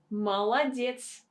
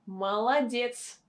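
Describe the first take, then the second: The two takes are said the same way.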